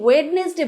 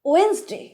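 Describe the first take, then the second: First: The word is said in three syllables. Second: The word is said in two syllables. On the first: The speaker calls it wrong. "এটা কিন্তু সঠিক উচ্চারণ নয়" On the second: The speaker calls it right. "সঠিক উচ্চারণ কোনটা? ওয়েন্সডে"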